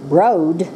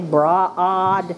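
First: The vowel sounds like the 'o' in boat. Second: The vowel sounds like an open 'ah'. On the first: The speaker calls it wrong. "we don't say broad" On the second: The speaker calls it right. "We say broad"

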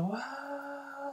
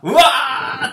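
First: It is said quietly. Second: It is said loudly.

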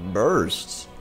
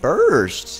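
First: It is said with little emphasis. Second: It is said with strong emphasis.

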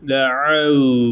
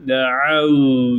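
No difference in how they are said.

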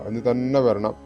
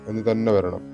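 The two takes are said the same way.

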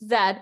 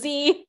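First: The letter is said the British English way. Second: The letter is said the American English way. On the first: "but in British English, Z" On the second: "It means Z in American English"

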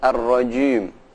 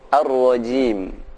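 First: The i vowel is said with rounded, pouting lips. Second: The i vowel is said with unrounded lips. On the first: The speaker calls it wrong. "jangan dibaca monyong" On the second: The speaker calls it right.

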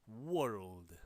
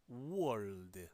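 No difference in how they are said.

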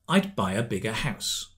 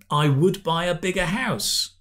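First: 'I would' is contracted to 'I'd'. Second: 'I would' is said in full as two words.

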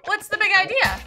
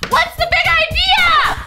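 First: It is said fairly quietly. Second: It is said very loudly.

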